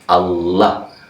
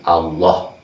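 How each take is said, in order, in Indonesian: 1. Vokal kedua bunyinya seperti 'a' terbuka. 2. Vokal kedua bunyinya seperti 'o' bulat. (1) "Karena nggak ada o ya, adanya a"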